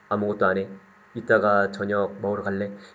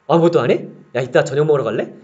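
First: It sounds stiff and sleepy, like reciting. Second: It sounds lively and natural, like a real call.

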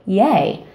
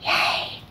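First: The cheer is at medium volume. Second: The cheer is soft.

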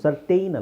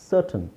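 First: The last syllable sounds like 'tain'. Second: The last syllable sounds like a short 'tun'. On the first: The speaker calls it wrong. "ಸರ್ಟೈನ್ ಅಲ್ಲ" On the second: The speaker calls it right.

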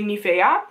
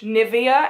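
First: The name is said with a Dutch pronunciation. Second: The name is said with an English pronunciation. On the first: "in Dutch you say Nivea" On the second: "this is how you pronounce it in English"

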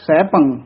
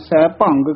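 First: The word ends nasally without a g sound. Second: The word ends with an added g sound. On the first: The speaker calls it right. "ਫਿਰ ਬੋਲਣਾ ਹੈ ਸੈਭੰ" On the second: The speaker calls it wrong. "ਕਈ ਗੱਗਾ ਲਾ ਦਿੰਦੇ ਹਨ"

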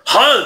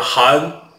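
First: The name is shouted loudly. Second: The name is said at normal volume. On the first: The caller wants to yell at him. "你要想过来吼我就是韩" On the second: The caller is speaking normally. "你要是想正常点就是韩就可以了"

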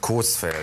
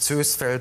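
First: The first vowel is a long o. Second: The first vowel is an ö sound. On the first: The speaker calls it right. "sondern Coesfeld" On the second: The speaker calls it wrong. "das heißt nicht Zösfeld"

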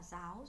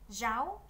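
First: The first consonant is soft and plain. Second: The first consonant is strong and very distinct. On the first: This is the common northern way of saying it. "người miền Bắc chúng ta nhiều người nói rất bình thường" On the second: This is how some regions say it. "có một số vùng miền thì chữ G này là hai âm khép kín và phát âm ra rất là rõ ràng"

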